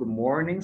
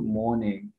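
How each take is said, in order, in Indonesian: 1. Diucapkan dengan aksen non-British. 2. Diucapkan dengan aksen British. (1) "awalnya good morning" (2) "sekarang good morning"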